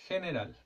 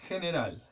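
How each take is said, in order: The two takes are said the same way.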